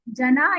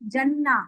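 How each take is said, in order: First: The middle n sound is short and single. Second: The middle n sound is long and doubled.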